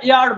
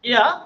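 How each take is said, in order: First: It ends with an audible r sound. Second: It ends on a vowel with no r sound. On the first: "যেটা আমরা এয়ার বলি"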